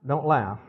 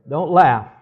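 First: Said in the usual way. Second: Louder mock-stern Don't laugh; playful loud warning. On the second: Real, not acted. Husband teasing laughing congregation, loud mock-stern warning. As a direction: bark a joking order at the laughers.

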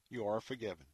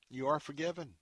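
First: "You are forgiven" repeated softer and lower; a quieter, lower "You are forgiven"; softer echo. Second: Said in the usual way. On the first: Real, not acted. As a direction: let the second "You are forgiven" fall gently. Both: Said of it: "repeated declaration".

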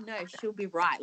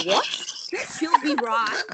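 First: Said in the usual way. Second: Confused raised echo, higher; mock baffled repeat of a strange phrase; puzzled echo. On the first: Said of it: "I'm like". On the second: Friends echoing an Aussie phrase, baffled and higher. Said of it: "they were like".

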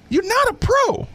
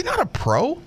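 First: Very high, emphatic verdict; emphatic repeat. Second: High verdict, lifting at the end. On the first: Host repeats his verdict on the player, high-pitched and emphatic. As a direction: pitch the whole line way up for emphasis. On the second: Host judging what players say in interviews, high rising verdict. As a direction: deliver it high without pushing the volume. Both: Real, not acted.

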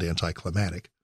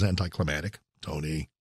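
First: Put-on Maryland accent, "anticlimactic" with a d slipped in front, "danticlimactic"; mock Maryland accent on "anticlimactic", said a bit lower. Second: "anticlimactic" said lower with a rising end; a light jab at a sportscaster's "anticlimactic"; Tony Romo style. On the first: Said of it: "as they say in Maryland". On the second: Retold or imitated. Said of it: "as Tony Romo says".

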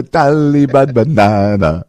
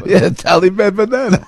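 First: Slow, drawn-out mock Taliban accent. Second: Much higher mock Taliban accent; sing-song "Taliban banana" in a joking Taliban accent. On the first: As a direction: stretch "Taliban banana" out in a put-on Taliban accent. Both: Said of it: "is that a Taliban accent?".

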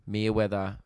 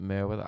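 First: Merewether said as MEE-weather; first syllable "mee". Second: Merewether said as MEH-weather; first syllable "meh". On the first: Unsure of the suburb's name, Merewether tried as MEE-weather. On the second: Second guess at the suburb's name, Merewether tried as MEH-weather. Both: Shown as a demonstration. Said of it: "or was it Merewether".

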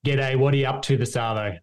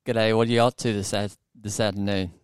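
First: Casual Australian accent, repeated for copying; natural Australian accent demonstration. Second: American attempting an Australian accent, faltering at the end; shaky-footed amateur Australian accent; imitated Australian accent. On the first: Shown as a demonstration. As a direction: say it in easy everyday Aussie. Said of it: "so say it again". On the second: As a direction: try Aussie and stumble on the last word. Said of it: "I'll see if I can do it".

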